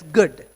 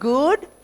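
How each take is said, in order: First: The vowel is said short and clipped. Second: The vowel is said long and drawn out. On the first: The speaker calls it right. "there's an exception to the rule" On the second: The speaker calls it wrong. "It's not good"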